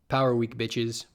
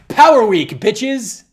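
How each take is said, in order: First: It sounds deflated and disappointed. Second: It sounds upbeat and confident.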